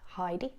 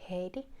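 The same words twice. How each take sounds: First: The first syllable does not sound like 'hey'. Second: The first syllable sounds like 'hey'. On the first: The speaker calls it wrong. "not Heidi" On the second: The speaker calls it right. "it's Heidi"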